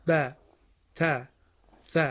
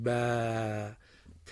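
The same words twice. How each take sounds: First: ب، ت، ث each with a short a vowel cut off at once; short clipped fatha. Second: ب، ت، with the a vowel drawn out long, wrong way; stretched fatha. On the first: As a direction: say ب، ت، ث with the vowel stopped short, the correct way. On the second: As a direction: drag the vowel in ب and ت too long, as a mistake. (کشیدن غلط صدای فتحه در ب، ت) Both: Shown as a demonstration.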